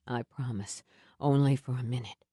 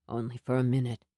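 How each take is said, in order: First: Low hurried comfort. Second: Lower, gentle comfort; low soothing Sam. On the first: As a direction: reassure her, low and urgent. Sam soothing her again. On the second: Sam soothing her pain. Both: A narrator's reading.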